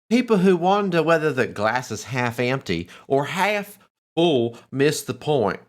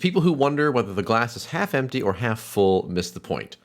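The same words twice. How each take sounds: First: It is read in a mixed British-American accent. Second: It is read in a plain American accent.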